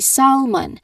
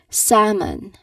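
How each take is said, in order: First: The L sound is pronounced in the word. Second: The L is silent in the word. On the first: The speaker calls it wrong. "I did not say salmon" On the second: The speaker calls it right. "I said salmon"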